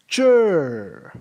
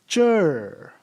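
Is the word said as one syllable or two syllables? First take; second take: one; one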